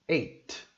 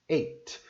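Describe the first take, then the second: No difference in how they are said.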